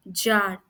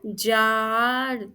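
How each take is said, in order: First: Said in the usual way. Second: जाड़ very slowly, "aa" held long; slow, drawn-out जाड़; sounding out आ. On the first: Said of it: "हमारा अगला sentence है जाड़". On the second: Shown as a demonstration. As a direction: stretch the vowel right through जाड़. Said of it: "आ का sound आ रहा है".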